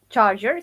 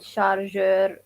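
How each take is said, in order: First: The word has an English pronunciation. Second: The word has a French-style pronunciation.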